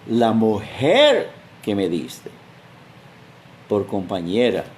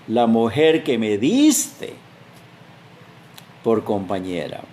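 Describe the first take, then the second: First: The emphasis falls on the word mujer. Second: The emphasis falls on the word diste. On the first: The woman is to blame. "El énfasis está en la mujer" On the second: The one who gave her is to blame. "es como tú, Señor. Tú eres el que tiene la culpa"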